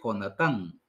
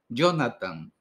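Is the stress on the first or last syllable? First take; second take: last; first. First: The stress is on the last syllable. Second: The stress is on the first syllable. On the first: It is read the Hebrew way. The speaker calls it right. "hay que acentuar al final" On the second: It is read the English way. The speaker calls it wrong. "En inglés nosotros acentuamos la primera sílaba. No va a decir"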